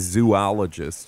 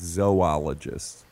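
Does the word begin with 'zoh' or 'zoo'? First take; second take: zoo; zoh. First: The first syllable sounds like 'zoo'. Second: The first syllable sounds like 'zoh'. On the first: The speaker calls it wrong. "you don't say zoologist" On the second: The speaker calls it right. "you say zoologist"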